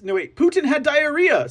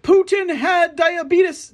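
First: Mock correction. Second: High, slow, mocking announcer voice; drawn-out mock headline, pitched up; mock news anchor. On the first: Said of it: "Sorry, sorry". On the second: Mocking the media's headlines in a high, slow mock announcer voice. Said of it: "They're gonna be like".

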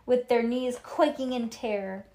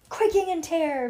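First: Said in the usual way. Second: High, loud relish on the phrase; dramatic echo. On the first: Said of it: "read Ivy". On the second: A narrator's reading. Bean echoing Ivy's reading, high loud dramatic echo. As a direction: repeat it with big, raised drama. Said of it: "Bean repeated".

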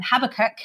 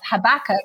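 First: Habakkuk said the Northern Irish way she grew up with; Belfast pronunciation. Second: Habakkuk said the other, corrected way; corrected pronunciation. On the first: Guest showing the Habakkuk she grew up with, Irish pronunciation. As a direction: give Habakkuk your Belfast sound. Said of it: "I grew up saying". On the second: Guest correcting herself on how to say Habakkuk, corrected pronunciation. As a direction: switch Habakkuk to the accepted sound. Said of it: "I mean, it's Habakkuk". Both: Shown as a demonstration.

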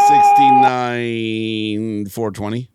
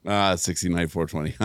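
First: Slow, loud, deliberate delivery; deadpan joke answer. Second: Said in the usual way. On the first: Real, not acted. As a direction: announce it with mock pride. Joke answer to math question.

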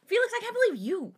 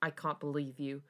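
First: High, fast mock indignation; mock outrage. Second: Understated dark scoff; dark disbelief. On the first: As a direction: squeal it in hammed-up disbelief. Listener mocks the line, overacting. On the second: A narrator's reading. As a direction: say it with a touch of disbelief. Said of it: "darkly scoff in disbelief".

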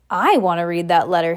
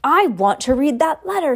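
First: Furious. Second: Higher, loud whiny demand. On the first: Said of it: "Harry said furiously". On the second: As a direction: demand it loudly. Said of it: "he said loudly". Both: A narrator's reading.

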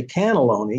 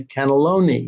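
First: "cannelloni" with the weight on the first syllable, CAN; wrong-syllable stress. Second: "cannelloni" with the main weight on LO; natural word stress. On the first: Writer showing how you don't say it, "cannelloni" stressed on CAN. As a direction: hit CAN in "cannelloni" instead of LO. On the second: Writer showing how you say it, "cannelloni" stressed on LO. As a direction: lean on the third syllable of "cannelloni", canne-LO-ni. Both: Shown as a demonstration. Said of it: "where the emphasis must be in each word".

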